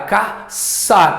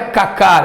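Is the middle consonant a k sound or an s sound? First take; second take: s sound; k sound. First: The middle consonant is a soft s sound. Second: The middle consonant is a hard k sound. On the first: The speaker calls it right. "é caçar" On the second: The speaker calls it wrong. "Não é cacar"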